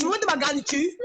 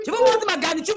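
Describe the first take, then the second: First: Said in the usual way. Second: Higher and louder, mocking the phrase; mocking loud repeat. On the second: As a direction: throw the words back loudly. Répète plus fort en se moquant. (répétée plus fort et plus aiguë, moqueuse)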